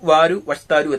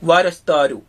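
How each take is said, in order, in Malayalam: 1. രണ്ടു വാക്കുകളുടെയും എല്ലാ അക്ഷരങ്ങളും വെവ്വേറെയാണ് പറയുന്നത്. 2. രണ്ടു വാക്കുകളും ചേർന്ന് ഒരു ചുരുങ്ങിയ വാക്കായി പറയുന്നു. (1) "ഇത് ശരിക്കും അച്ചടി ഭാഷയാണ്" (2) "സാധാരണ ഉപയോഗിക്കുന്ന ഒരു പ്രൊനൗൺസിയേഷൻ"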